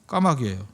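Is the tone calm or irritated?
calm. It is said calmly and patiently.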